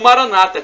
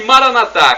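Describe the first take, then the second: First: The stress is on the second-to-last syllable. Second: The stress is on the last syllable. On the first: This is how Protestants say it. "como dizem nossos irmãos separados" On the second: This is how Catholics say it. "como dizemos nós católicos, com a tônica na última sílaba"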